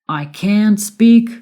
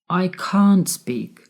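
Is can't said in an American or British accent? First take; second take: American; British. First: It is said with an American accent. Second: It is said with a British accent.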